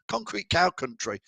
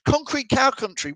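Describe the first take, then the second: First: Said in the usual way. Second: Reads the place name with a high, baffled lift; puzzled reading. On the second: Real, not acted. Host reading a viewer's location, confused by it. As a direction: say it like you have no idea where that is. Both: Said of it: "You've absolutely lost me".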